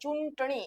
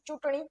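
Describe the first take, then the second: First: The nasal is pronounced strongly and separately. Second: The nasal is pronounced softly on the vowel. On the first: The speaker calls it wrong. "એને તમે એમ નથી બોલતા" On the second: The speaker calls it right. "એને તમે એમ જ બોલો છો"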